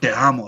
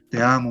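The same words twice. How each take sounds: First: It sounds angry. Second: It sounds tender.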